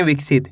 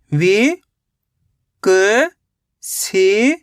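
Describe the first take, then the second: First: Said in the usual way. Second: "वि", "क", "सी" each said as a separate, drawn-out syllable with a pause between; sounded out syllable by syllable. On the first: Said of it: "दोनों को मिला दो विकसित". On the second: Shown as a demonstration. Teacher sounding out a word for young readers, syllable by syllable. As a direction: break the word into syllables for a child. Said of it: "पहले विक पढ़ो, उसके बाद सित पढ़ो".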